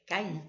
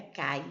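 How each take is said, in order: First: "cair" split ca-ir with stressed i; correct way, two syllables. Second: "cai" said as one syllable, ai glided; wrong way, one syllable. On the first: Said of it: "não é cai, é cair". ("cair" separado, ca-IR) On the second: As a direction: say "cai" together, no final r. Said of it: "não é cai". ("cai" numa sílaba só) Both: Shown as a demonstration.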